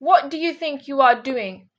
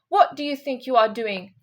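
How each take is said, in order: First: It is said with an angry tone. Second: It is said calmly, without anger.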